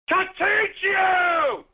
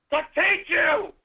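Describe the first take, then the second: First: Even slower, more stretched bellow; very slow shout. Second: Drawn-out angry shout; slow shout. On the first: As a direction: drag out every word in a yell. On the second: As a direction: bellow each word slowly. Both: Real, not acted. Shouting at other players.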